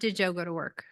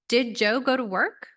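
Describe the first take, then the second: First: The pitch stays flat at the end of the question. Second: The pitch rises at the end of the question. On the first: The speaker calls it wrong. "It's not flat" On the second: The speaker calls it right. "It should go up"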